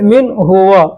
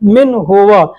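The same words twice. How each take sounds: First: The pronoun stands apart as a full huwa. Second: The same.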